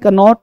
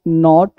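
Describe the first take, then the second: First: The word starts with a k sound before n. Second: The word starts directly with an n sound. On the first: The speaker calls it wrong. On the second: The speaker calls it right.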